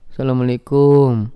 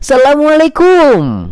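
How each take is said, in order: First: It is said sulkily, with a frown. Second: It is said cheerfully, with a smile.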